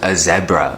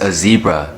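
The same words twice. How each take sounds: First: It is said with a South African accent. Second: It is said with an American accent.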